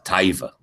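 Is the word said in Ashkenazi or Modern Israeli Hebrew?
Ashkenazi. The first vowel glides into an ai sound.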